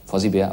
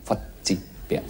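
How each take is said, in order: First: The double z sounds like an English z. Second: The double z sounds like ts. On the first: This is how the name is said in English. "Englisch natürlich" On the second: This is how the name is said in German. "aber wir sagen"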